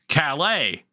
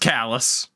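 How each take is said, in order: First: The word ends in an 'ay' sound. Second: The word ends in an 'us' sound. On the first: This is how the French say it. "in France is pronounced Calais" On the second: This is how locals in Maine say it. "How do you think we pronounce it in Maine?"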